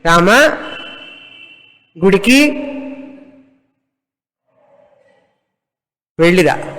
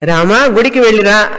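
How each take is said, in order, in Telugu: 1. పదాల మధ్య పెద్ద విరామాలు ఉంటాయి. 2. పదాలు పెద్ద విరామాలు లేకుండా కలిసి పలుకుతాయి.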